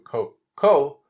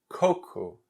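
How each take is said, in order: First: The stress is on the last syllable. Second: The stress is on the first syllable. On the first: It sounds like the word for poo. The speaker calls it wrong. "that's similar to the word poo-poo in Portuguese" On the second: It means coconut. The speaker calls it right. "emphasis in the beginning of the word"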